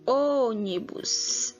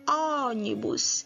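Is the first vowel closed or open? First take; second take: closed; open. First: The first vowel is closed, mouth less open. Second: The first vowel is open, mouth wide open. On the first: The speaker calls it right. "utilizamos o acento circunflexo e falamos O" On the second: The speaker calls it wrong. "Se tivesse o agudo, o som aberto seria O"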